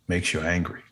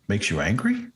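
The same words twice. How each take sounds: First: The voice falls at the end. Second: The voice rises at the end.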